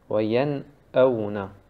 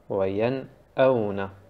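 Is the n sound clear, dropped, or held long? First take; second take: clear; clear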